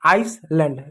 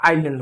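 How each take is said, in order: First: आइसलैंड with S sounded, "ais-land"; wrong pronunciation. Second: आइलैंड as "ai-land", no S; silent S. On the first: Teacher mimics misreading, mispronounced with audible S. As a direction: hiss the S in आइसलैंड. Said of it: "इसको आइसलैंड पढ़ते हैं". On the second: Teacher corrects misreading, saying it with silent S. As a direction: glide from "ai" into L in आइलैंड. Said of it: "आइसलैंड नहीं होता". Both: Shown as a demonstration.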